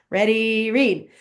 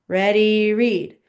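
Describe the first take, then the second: Both takes have the same delivery.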